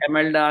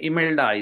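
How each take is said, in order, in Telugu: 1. ఈ పేరు 'eh' అచ్చుతో మొదలవుతుంది. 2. ఈ పేరు 'ee' అచ్చుతో మొదలవుతుంది. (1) "ఎమెల్డా అని ఏదో పలుకుతుంటారు వీళ్ళు ఇక్కడ" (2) "ఇ- ఇమెల్డా ఇది"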